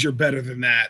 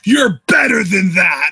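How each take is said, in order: First: It is said quietly, under the breath. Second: It is screamed loudly.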